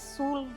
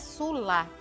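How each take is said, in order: First: The final syllable is swallowed and dropped. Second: The final syllable is clearly pronounced. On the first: The speaker calls it wrong. "a última sílaba da palavra a gente não pode engolir... geralmente a gente fala sul" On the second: The speaker calls it right. "é sula"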